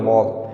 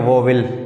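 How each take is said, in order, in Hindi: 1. यह एक अक्षर में बोला जाता है, vowl। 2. यह दो अक्षरों में बोला जाता है, vo-wil। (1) "सही प्रोनाउंसिएशन" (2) "जो सरासर गलत है"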